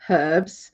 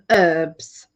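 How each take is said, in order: First: The word begins with an audible h sound. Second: The word begins without any h sound. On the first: This is how people in England say it. "We pronounce the h for herbs" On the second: This is how people in America say it. "you call them herbs"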